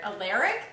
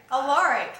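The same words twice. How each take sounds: First: "Alaric?" said uh-LAIR-ick with a questioning rise; "Alaric?" mocked as uh-LAIR-ick, rising; mocked pronunciation. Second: "Alaric." said uh-LAR-ick, falling; "Alaric." corrected to uh-LAR-ick with a firm fall; correct pronunciation. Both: Shown as a demonstration. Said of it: "You say it weird".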